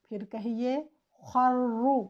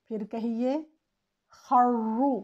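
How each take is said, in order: The two takes are said the same way.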